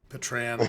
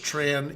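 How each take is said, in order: First: The name begins with a P sound. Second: The name begins without a P sound.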